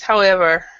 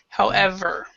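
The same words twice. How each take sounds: First: The v sound is pronounced weakly. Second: The v sound is pronounced strongly. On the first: The speaker calls it wrong. "what it sounded like when you read it was however" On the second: The speaker calls it right. "try to pronounce the V a little bit stronger"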